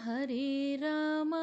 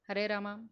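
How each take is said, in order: First: The long vowels are stretched out slowly. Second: The vowels are rushed and clipped short. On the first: The speaker calls it right. "దాన్ని కాస్త దీర్ఘం ఇచ్చి మనం చదవగలిగితే" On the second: The speaker calls it wrong. "ఏమిటండి మళ్ళీ ఏదో పరిగెట్టారు?"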